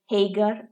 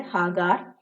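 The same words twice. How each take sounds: First: ഹേഗർ said the English way, "HAY-gur"; English form of name. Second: ഹാഗാർ said the Malayalam way, "HAA-gaar"; Malayalam form of name. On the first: Teacher gives the class the English name, English pronunciation. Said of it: "അല്ലെങ്കിൽ മലയാളത്തില്". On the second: Teacher gives the Malayalam version of Hagar, Malayalam pronunciation. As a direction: say ഹാഗാർ with long open "aa" in both syllables. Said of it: "മലയാളത്തില് ഹാഗാർ". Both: Shown as a demonstration.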